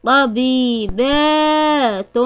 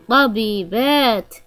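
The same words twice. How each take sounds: First: طبيبات stretched slowly syllable by syllable; slow model word. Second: Said in the usual way. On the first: Shown as a demonstration. Teacher modelling the plural طبيبات slowly for children. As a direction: draw out طبيبات for pupils to copy.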